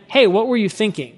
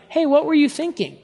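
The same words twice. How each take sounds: First: Really want to understand; humble tone. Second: Higher, scolding "what were you thinking"; judgmental, pointed question; accusing tone. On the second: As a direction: call them out with blame. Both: Shown as a demonstration. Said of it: "completely different tone".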